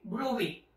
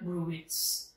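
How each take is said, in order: First: The word ends in a vowel, no final t. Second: The word ends with a final t sound. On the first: The speaker calls it right. "it pronounced as Bruy daw" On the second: The speaker calls it wrong. "not Bruits"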